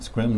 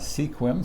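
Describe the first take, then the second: First: The name is said the local way. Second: The name is said a different way. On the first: This is how the town's name is really said. The speaker calls it right. "we're pronouncing it Sequim" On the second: This is how outsiders might say the name. The speaker calls it wrong. "not Sequim"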